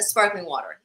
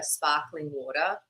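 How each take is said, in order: First: American "sparkling water" with both R's sounded; American accent. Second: Australian vowels, "sparkling water" with both R's dropped; non-rhotic Australian "sparkling water"; Australian accent. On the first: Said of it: "could do an American accent". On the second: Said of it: "born out of necessity, like, asking a waiter". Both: Retold or imitated.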